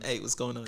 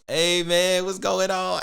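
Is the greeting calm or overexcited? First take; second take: calm; overexcited. First: The greeting sounds calm and professional. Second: The greeting sounds overexcited and drunk.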